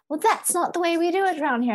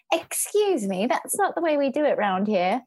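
First: High, quick prissy British lady; mock a stuck-up British lady, fast and high; British accent. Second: High, prim British lady imitation; lightly voiced prim British lady; British accent. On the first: The British woman scolding again, high fast British accent. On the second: Imitating the British woman scolding her, prim British accent. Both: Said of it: "a British lady".

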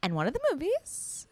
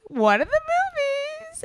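First: Said in the usual way. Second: Much higher, louder and slow, savoring each word; dramatic high stretch. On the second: Real, not acted. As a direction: drag it out like a big teaser. Dramatic build-up before the big reveal.

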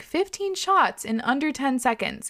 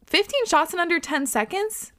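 First: Slowly spelled-out reveal, higher in pitch; slow emphasis. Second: High, rising question of disbelief; incredulous. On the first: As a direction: lay out the astonishing figure slowly. Reads out the contest's rule. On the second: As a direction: echo it as a shocked question. Repeats it in shock, not safe. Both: Real, not acted.

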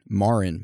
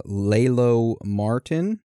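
First: "Marin" said MAR-in, with no T; "Marin" said as two syllables, MAR-in, with no T sound; corrected name. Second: "Martin" said with a T, the wrong way; "Martin" with a clear T in the middle; mispronounced name. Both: Real, not acted. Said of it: "not Martin".

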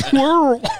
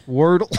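First: Wordle blurted higher and louder; hammed-up echo of the guest's Wordle; mimicking the guest. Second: Wordle said through a laugh. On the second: Real, not acted. Repeating the clip's answer.

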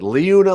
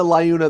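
First: Liuna said as LEE-oo-na; either-way pronunciation. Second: Liuna said as LIE-oo-na; either-way pronunciation. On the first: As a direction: open Liuna with "lee", pitched up. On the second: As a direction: open Liuna with "lie", pitched up. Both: Shown as a demonstration. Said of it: "say it either way and be right".

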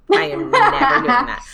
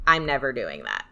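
First: NEVER pushed high and loud; high, loud insistence on "never"; emphatic refusal. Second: Said in the usual way. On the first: Real, not acted. Guest ruling out asking an intuitive, emphatic refusal.

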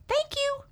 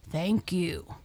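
First: Tiny, very high mouse voice; grateful squeak. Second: Sincere thanks in the narrator's own range; humble. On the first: Freed mouse thanking the lion, squeaking gratefully. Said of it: "squeaked Mouse gratefully". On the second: Freed lion thanking the mouse, humbly. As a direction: give thanks humbly, without any roar. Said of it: "he said humbly". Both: A narrator's reading.

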